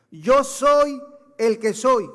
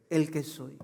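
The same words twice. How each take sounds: First: "Yo soy el que soy" said slowly, higher and louder, every word weighted; slow emphatic proclamation. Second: Said in the usual way. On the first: Acted. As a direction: proclaim it word by word like the divine name. Preacher proclaims God's name. (proclamación lenta y enfática)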